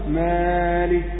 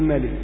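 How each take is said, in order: First: The first vowel is stretched longer than normal. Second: The first vowel is cut short to a brief vowel. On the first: "أزيد عن المقدار مالك، هذه زيادة عن القدر" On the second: "إن قصرت عن هذا القدر تقول ملك"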